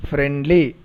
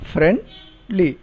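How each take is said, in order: First: Said in the usual way. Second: "friendly" as two separate beats, friend, then li; split into syllables. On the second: Shown as a demonstration. Teacher showing two syllables in a word, "friendly" pulled apart. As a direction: clear gap in "friendly" before the "li". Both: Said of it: "syllables in the word".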